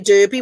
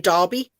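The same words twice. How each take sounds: First: The first vowel sounds like 'er'. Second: The first vowel sounds like 'ar'. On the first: The speaker calls it wrong. "we wouldn't say Derby" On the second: The speaker calls it right. "we would say Derby. The E would be classed as an A"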